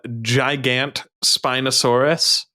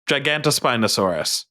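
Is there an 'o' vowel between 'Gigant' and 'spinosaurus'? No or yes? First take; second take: no; yes. First: It is said without a vowel after 'Gigant'. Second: It is said with an 'o' after 'Gigant'. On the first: The speaker calls it wrong. "I hate that you have to say it like that" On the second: The speaker calls it right. "There should be an O in there"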